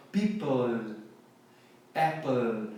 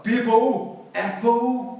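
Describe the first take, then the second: First: "people", "apple" lower, tongue up to a dark L; native dark L. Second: "people", "apple" higher and louder, ending in an "ou" sound; wrong Brazilian ending. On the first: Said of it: "com a língua assim no céu da boca". ("people", "apple" com L nativo, língua no céu da boca) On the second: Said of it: "termina com O U no final da palavra". ("people", "apple" com final "ou", do jeito errado) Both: Shown as a demonstration.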